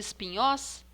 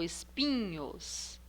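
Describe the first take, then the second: First: The stress is on the last syllable. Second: The stress is on the second-to-last syllable. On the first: The speaker calls it wrong. "Última sílaba" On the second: The speaker calls it right. "é o pi. O pi é a penúltima"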